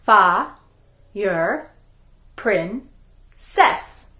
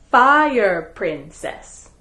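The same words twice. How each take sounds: First: "Fa-yer-princess" drawn out syllable by syllable; "Fa-yer-princess" slowly, every syllable separate. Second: Said in the usual way. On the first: Shown as a demonstration. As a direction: stretch "Fa-yer-princess" into four slow beats. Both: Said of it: "Her name has four syllables".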